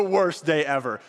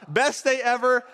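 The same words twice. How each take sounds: First: Lower, glum groan of a line; mock worst day. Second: Upbeat, high and pleased; mock best day. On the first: Haman forced to honor Mordecai, glum and low. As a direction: drop into misery. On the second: Haman before the parade, pleased and upbeat. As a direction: cheer it like a lucky winner. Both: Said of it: "He went from".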